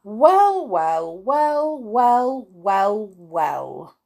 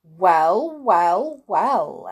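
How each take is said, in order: First: Loud start high, stepping down word by word; exclaiming. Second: Loud, drawn-out wizardly exclamation; exclaimed. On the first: Wizard amazed at the spilled money, exclaiming in descending steps. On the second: Wizard eyeing money rolling over the floor, exclaiming. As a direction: exclaim each word separately, with weight. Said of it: "exclaimed the wizard". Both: A narrator's reading.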